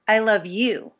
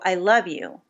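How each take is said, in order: First: The stress falls on the word you. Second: The stress falls on the word love. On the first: It is this person, rather than anyone else, who is loved. "implying, no, it's you who I love" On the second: The feeling is love, not just liking. "I don't just like you, I love you"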